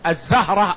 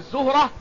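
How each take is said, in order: First: The first syllable has an 'a' vowel. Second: The first syllable has a 'u' vowel. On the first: "بالفتح" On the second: "بالضم"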